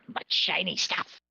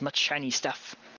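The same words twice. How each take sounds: First: It is said in a put-on goblin voice. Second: It is said in his normal voice.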